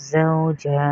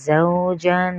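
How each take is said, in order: First: The word ends on a long vowel. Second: The word ends with an n sound. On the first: The reader stops on the word. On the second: The word is read without stopping.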